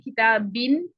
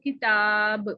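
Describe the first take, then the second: First: The word ends with an added n sound. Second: The word ends abruptly on a bare b. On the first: The reading continues without stopping. "वसलन पढ़ें तो ... आवाज आएगी नून की" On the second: The reader stops on this word. "जब वक्फ करेंगे तो"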